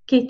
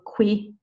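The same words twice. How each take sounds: First: The word begins with a plain k sound. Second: The word begins with a kw sound. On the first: The speaker calls it right. "QU is a k sound" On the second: The speaker calls it wrong. "don't say qu here or qué"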